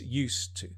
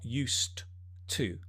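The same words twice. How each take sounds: First: The two words are run together and reduced. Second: Each word is pronounced fully, as it is written. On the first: The speaker calls it right. "it's used to" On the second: The speaker calls it wrong. "It's not used to. No, although it's written like that"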